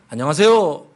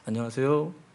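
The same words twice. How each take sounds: First: It is said loudly with lots of energy. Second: It is said quietly with little energy.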